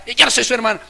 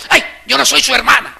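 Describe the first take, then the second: First: Loud, high huffy retort; a sister stamping her foot; sulky angry sister. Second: Loud, high huffy retort; sulky angry sister. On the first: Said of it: "Están bravas". (hermana brava, aguda y fuerte) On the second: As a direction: snap it like an annoyed sister. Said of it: "está brava con Ana y le dice". (hermana enojada, aguda y fuerte) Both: Retold or imitated.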